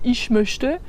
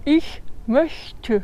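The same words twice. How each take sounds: First: The ch sounds are pronounced the French way. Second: The ch sounds are soft German hissing sounds. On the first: The speaker calls it wrong. "tout de suite tu passes pour un français" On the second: The speaker calls it right. "Donc vraiment"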